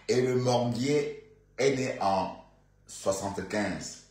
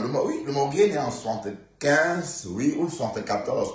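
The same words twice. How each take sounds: First: Slow, unsure. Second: Emphatic correction. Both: Shown as a demonstration. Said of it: "non, qu'est-ce qu'il raconte?".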